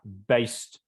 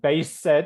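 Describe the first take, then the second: First: The word is said as one syllable. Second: The word is said as two syllables. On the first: The speaker calls it right. "it's one syllable" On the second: The speaker calls it wrong. "not base said"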